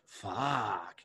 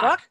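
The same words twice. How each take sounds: First: It is said in an admiring, attracted tone. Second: It is said in an angry, annoyed tone. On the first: The speaker finds someone attractive. "you see somebody that you're interested in" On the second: The speaker is angry. "you're pissed off"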